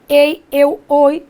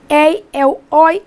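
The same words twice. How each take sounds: First: The diphthongs are said with closed vowels. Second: The diphthongs are said with open vowels.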